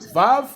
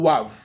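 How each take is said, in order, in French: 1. Le mot commence par un son V. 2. Le mot commence par un son W. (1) "Ça dit V" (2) "et W"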